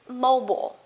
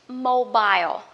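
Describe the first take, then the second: First: It is said with an American accent. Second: It is said with a British accent. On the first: "American English" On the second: "for British English"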